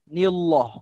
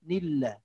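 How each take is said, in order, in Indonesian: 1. Bunyi 'l' tebal dan berat. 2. Bunyi 'l' tipis dan ringan.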